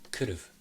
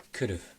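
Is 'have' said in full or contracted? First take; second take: contracted; contracted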